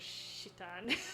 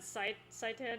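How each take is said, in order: First: The name begins with a 'sh' sound. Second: The name begins with a plain 's' sound. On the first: This is the original form of the name. "it does sound like I'm saying shit" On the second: This is the usual English form of the name. "most people pronounce it Saitan in English"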